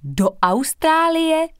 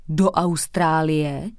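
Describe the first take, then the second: First: Much higher, slow awestruck cry; amazed chorus. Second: Slow, astonished question; surprised blurt. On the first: Three classmates amazed at the news, high awestruck question. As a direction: gasp it out in wonder, all together. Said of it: "pronesly všechny tři spolužačky v úžasu". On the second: Boy hears his friend is flying away, slow surprised question. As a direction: stretch it out in disbelief. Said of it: "vyhrkl překvapeně Tarek". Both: A narrator's reading.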